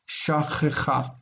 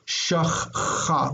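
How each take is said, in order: First: A short vowel separates the two ch sounds. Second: The two ch sounds come together without a vowel. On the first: The speaker calls it right. "This medial shava is pronounced as a vocal shava" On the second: The speaker calls it wrong. "we don't want to say shachcha"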